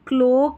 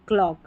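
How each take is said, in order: First: The vowel is a long 'oh' sound. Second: The vowel is an open 'aw' sound. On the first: The speaker calls it wrong. "क्लोक नहीं पढ़ रहे" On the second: The speaker calls it right. "ओ नहीं पढ़ना है, अ ही पढ़ना है"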